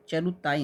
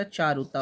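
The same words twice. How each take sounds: First: चरुताई ending in "-taa-ee"; wrong word form. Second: चारुता with long "chaa", ending "taa"; correct word form. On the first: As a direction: say चरुताई with short first vowel and final ee. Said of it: "नहीं होता". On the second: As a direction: say चारुता without final ee. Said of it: "होता है". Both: Shown as a demonstration.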